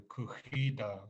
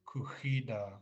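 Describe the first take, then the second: Both takes have the same delivery.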